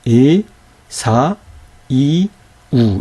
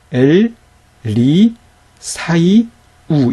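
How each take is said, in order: First: 에, 사, 이, 우 in four detached beats; vowels read separately. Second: 엘, 리, 사이, 우 in four beats, 사이 joined; teacher's measured 엘, 리, 사이, 우; syllable-by-syllable reading. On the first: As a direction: pause between 사 and 이, no gliding. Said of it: "이렇게 읽어야 되는 것이죠". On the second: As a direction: pause after each unit, keep 사이 as one. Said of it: "이렇게 읽어야 되는 거죠". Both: Shown as a demonstration.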